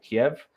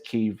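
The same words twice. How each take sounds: First: The name is said the usual English way. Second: The name is said the Ukrainian way.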